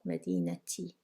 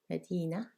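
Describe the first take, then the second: First: The word ends in a t and a vowel. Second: The word ends in a vowel, with no t. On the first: "if we want to pronounce this vowel E here, then we will say Madinati" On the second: "ta marbuta is usually not pronounced"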